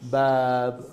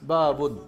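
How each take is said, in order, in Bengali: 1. শব্দটি একটি খালি ব্যঞ্জনবর্ণ দিয়ে শেষ হয়। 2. শব্দটি স্বরবর্ণ আর n দিয়ে শেষ হয়। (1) "থামার সময় সুকুন দিয়ে থামতে হবে।" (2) "না ঠিক না।"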